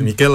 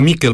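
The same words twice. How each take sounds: First: The stress is on the second syllable. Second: The stress is on the first syllable. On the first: The speaker calls it right. "C'est Michel avec l'accent sur le E" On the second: The speaker calls it wrong. "Et pas Michel, parce que parfois on dit Michel, c'est en basque"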